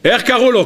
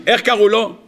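First: איך קראו לו raised and louder; איך קראו לו pushed at the audience for an answer; insistent repeat. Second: Said in the usual way. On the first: Shown as a demonstration. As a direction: press the crowd with איך קראו לו. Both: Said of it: "asks the question again".

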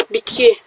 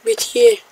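First: Said in the usual way. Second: High squeak. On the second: Pretend. Repeats word in silly high voice.

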